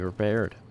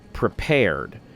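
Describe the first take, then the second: First: The word is slurred with a weak first p. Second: The word is enunciated with a clear first p. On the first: The speaker calls it wrong. "my tendency to just sort of mesh words together" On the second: The speaker calls it right. "I should pronounce it prepared, enunciate on the um, on the p-p-puz"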